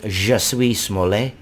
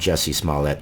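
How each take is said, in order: First: The first name is pronounced like French words. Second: The first name is pronounced the usual English way. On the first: "that to me looks like a French name, and I would like to pronounce it" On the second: "since everybody seems to call him that"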